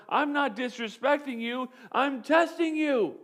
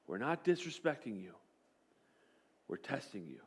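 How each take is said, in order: First: Firm coach reply. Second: Much softer and lower, hushed; soft reassurance. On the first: Coach correcting his angry quarterback, firm and emphatic. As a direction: set him straight, hit testing. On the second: Coach quietly reframing the test for his quarterback, soft. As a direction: let it land gently. Mindset shift, coach's words recast. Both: Retold or imitated.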